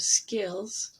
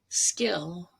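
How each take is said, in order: First: The final consonant sound is clearly pronounced. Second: The final consonant sound is left off. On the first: The speaker calls it right. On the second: The speaker calls it wrong.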